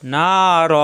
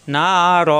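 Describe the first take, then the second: The two takes are said the same way.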